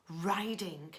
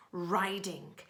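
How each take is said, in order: Both takes have the same delivery.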